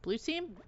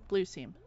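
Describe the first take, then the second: First: Blue team? asked with a soft rise; quietly checking "Blue team?"; questioning tune. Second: Blue team. said low with a falling tune; calm confirming answer; settled statement. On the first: Checking which team she is on. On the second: Confirming which team she is on. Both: Real, not acted.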